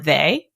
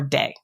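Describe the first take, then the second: First: The word begins with a th sound. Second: The word begins with a d sound.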